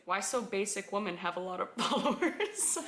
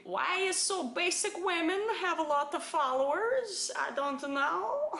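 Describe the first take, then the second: First: Said in the usual way. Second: Higher, sing-song broken English; exaggerated broken-English accent, pitched up. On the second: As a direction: put on a foreign broken-English voice. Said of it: "It's the broken English for me".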